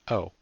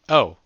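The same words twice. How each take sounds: First: It is said in a very small voice. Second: It is said in a normal, full voice.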